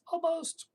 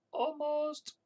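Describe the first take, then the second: First: Almost squeaked out very high again; a silly, much higher squeaky voice; mock-excited falsetto tease; playful squeak. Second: Almost squeaked out very high; a silly, much higher squeaky voice; mock-excited falsetto tease; playful squeak. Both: Teasing reaction to near-hit target.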